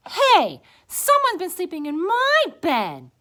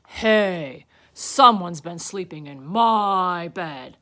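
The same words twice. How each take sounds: First: High, loud, indignant she-bear; Mama Bear. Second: Big, loud bear voice; Papa Bear. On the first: Mama Bear looking at her bed, high loud voice. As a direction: cry out high and offended. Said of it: "Mama Bear looked at hers". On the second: Papa Bear upstairs at his bed, loud indignant voice. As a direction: boom it slowly, indignant. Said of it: "Papa Bear went upstairs". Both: A narrator's reading.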